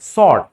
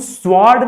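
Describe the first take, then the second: First: The word is said without a W sound. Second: The word is said with a W sound. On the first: The speaker calls it right. "सॉर्ड, सॉर्ड" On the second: The speaker calls it wrong. "इसको हम स्वॉर्ड नहीं पढ़ते हैं"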